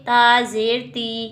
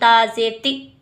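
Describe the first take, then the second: First: The final vowel is said gently and easily. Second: The final vowel is cut off with a jolt. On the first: The speaker calls it right. "नरमी के साथ पढ़ेंगे, आराम के साथ" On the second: The speaker calls it wrong. "ना ही हम झटका दे के पढ़ेंगे"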